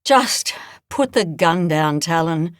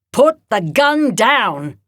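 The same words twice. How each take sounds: First: Sighed. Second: Slow, loud, firm order; firm command. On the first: Edna wearily asking Talon to drop the rifle, sighing. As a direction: let it out on a tired breath. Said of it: "Edna sighed". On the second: Edna ordering Talon to disarm, slow and firm. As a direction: lay each word down heavy and firm. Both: Acted.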